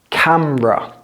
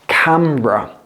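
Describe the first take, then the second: First: The middle vowel is dropped entirely. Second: The same.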